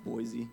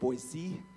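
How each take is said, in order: First: It is said the way outsiders say it. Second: It is said the way locals say it. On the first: The speaker calls it wrong. "not Boise, so make sure you say it right" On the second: The speaker calls it right. "They say it Boise"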